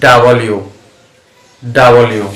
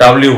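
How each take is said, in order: First: "ডাব্লিউ" spread out as da-ba-liu; correct pronunciation. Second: "ডাব্লিউ" run together with b and l joined; common pronunciation. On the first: Teacher models the letter W for learners, corrected pronunciation. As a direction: give "ডাব্লিউ" a vowel between b and l. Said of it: "সঠিক উচ্চারণ হচ্ছে". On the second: Teacher quotes how we say W, common pronunciation. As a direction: say "ডাব্লিউ" quickly as dab-liu. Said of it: "এটাকে আমরা ডাব্লিউ বলি". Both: Shown as a demonstration.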